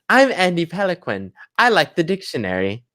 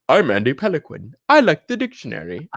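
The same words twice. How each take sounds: First: It is said in a normal-pitched voice. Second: It is said in a deeper voice. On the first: The speaker calls it wrong. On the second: The speaker calls it right.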